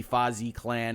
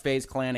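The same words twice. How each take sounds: First: "Fazi Clan" with a final ee sound on Fazi; pronounced "fah-zee". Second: "FaZe Clan" with FaZe rhyming with "maze"; pronounced "faze". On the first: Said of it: "It could be Fazi Clan". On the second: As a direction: say FaZe as one syllable, like "phase". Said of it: "I think it's pronounced". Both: Shown as a demonstration.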